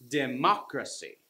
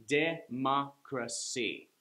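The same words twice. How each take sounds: First: "Democracy" with "moc" punched; stress on second syllable. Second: "Democracy" slowly in four separate beats; split into syllables. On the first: Teacher showing what she means, second syllable stressed. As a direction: hit the second syllable of "Democracy", rest lighter. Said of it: "third from the last syllable gets the stress". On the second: Teacher showing a four syllable word, slow separated syllables. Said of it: "that's a four syllable word". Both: Shown as a demonstration.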